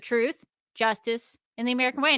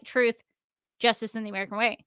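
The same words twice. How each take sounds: First: There is a pause before 'and'. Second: There is no pause before 'and'.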